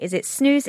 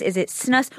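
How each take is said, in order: First: "snooze" with a long oo and buzzing z, rising; snus like snooze. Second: "snus" with a short uh, hissed s, rising; short-vowel snus. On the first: Host asks reporter how we say it, long-oo "snooze". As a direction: ask "snooze" with a long oo, pitched up. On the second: Host offers reporter the other pronunciation, short-uh "snus". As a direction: ask "snus" to rhyme with bus, pitched up. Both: Shown as a demonstration. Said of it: "including how we say it".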